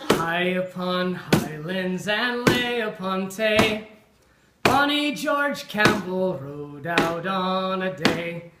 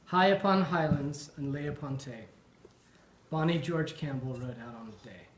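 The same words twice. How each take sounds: First: It is read with lively color and voice. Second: It is read in a flat, boring way.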